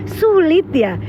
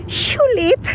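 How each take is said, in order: First: Said in the usual way. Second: "sulit" higher, opening on a sh sound; playful mispronunciation. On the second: Real, not acted. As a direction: say "sulit" with sh for s, pitch raised then falling. Word repeated with playful sh sound. ("sulit" bernada tinggi dengan bunyi sy di awal)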